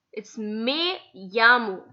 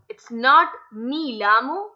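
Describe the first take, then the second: First: Me llamo with the double L as a y sound, jamo; correct me llamo. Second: Me llamo run together as "mil amo", the wrong way. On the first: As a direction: say me llamo as "me yamo", slowly. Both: Shown as a demonstration.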